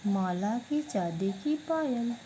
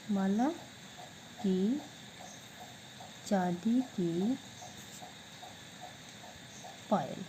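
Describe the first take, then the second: First: Said in the usual way. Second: Each word of माला की चांदी की पायल spoken apart with long pauses; slow dictation. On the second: Shown as a demonstration. Teacher dictating the answer to students, slow and separated. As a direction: spell it out word by word for the class to copy. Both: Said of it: "तो क्या बन गया?".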